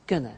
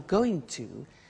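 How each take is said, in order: First: The two words are contracted into one. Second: The two words are said in full.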